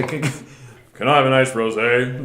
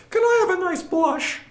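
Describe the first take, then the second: First: Deep man voice. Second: Put-on high, quavery old granny voice; old grandma voice. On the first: Retold or imitated. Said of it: "super deep man voice". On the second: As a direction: play a sweet little grandma ordering wine. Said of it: "Old grandma voice".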